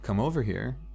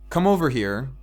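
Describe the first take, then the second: First: It is said in a soft, seductive tone. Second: It is said in a flat, neutral tone. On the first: It is a romantic invitation. "and you got some candles lit" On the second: It is a plain request to approach. "said neutrally"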